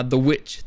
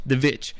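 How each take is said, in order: First: Said in the usual way. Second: "Vitch" said with a V sound in place of W. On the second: Shown as a demonstration. Reviewer re-saying the film's title, "Vitch" with a V. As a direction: say "Vitch" starting with a buzzing V.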